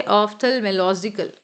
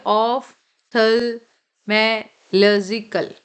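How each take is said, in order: First: Said in the usual way. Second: ऑप्थेलमोलॉजिकल said very slowly, syllable by syllable; slow spelled-out pronunciation. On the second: Shown as a demonstration. Teacher showing students how to read ऑप्थेलमोलॉजिकल, slow and careful. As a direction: stretch out ऑप्थेलमोलॉजिकल so each part is heard. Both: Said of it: "ऐसे आपको पढ़ना है".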